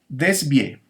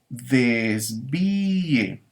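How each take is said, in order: First: The final vowels merge into one syllable. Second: The final vowels are split into two syllables. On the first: The speaker calls it wrong. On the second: The speaker calls it right. "hay que separarlas y hay que pronunciarlas en sílabas distintas"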